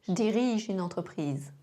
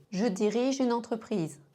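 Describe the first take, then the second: First: "Je dirige" said zh-dirige, no E; J straight into "dirige"; E of "je" swallowed; contracted je. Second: Said in the usual way. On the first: Shown as a demonstration. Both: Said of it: "mêmes sons".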